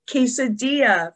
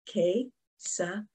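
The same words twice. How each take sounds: First: Said in the usual way. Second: "Quesadilla" softer, as que, sa, di, lla; four separated beats on "Quesadilla"; clapped-out syllables. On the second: Shown as a demonstration. Teacher clapping with children, "Quesadilla" split syllable by syllable. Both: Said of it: "we're gonna clap out the syllables".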